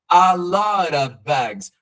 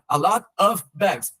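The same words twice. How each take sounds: First: The words run together with 'of' reduced. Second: Each word is said separately with breaks between. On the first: The speaker calls it right. "eu coloquei a lot, porque é o jeito como o nativo vai falar" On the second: The speaker calls it wrong. "Só não separa. ... Não"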